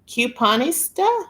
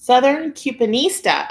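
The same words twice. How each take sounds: First: "Couponista?" read slowly, rising, as a question; puzzling out the name "Couponista?" with a rising tune; unsure reading. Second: "Southern Couponista." said firmly, falling at the end; confident reading. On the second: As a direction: announce "Southern Couponista." as now understood, with a settled fall. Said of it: "Oh, like you do coupon". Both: Shown as a demonstration.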